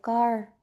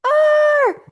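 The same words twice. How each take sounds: First: The word is said calmly and quietly. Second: The word is shouted loudly.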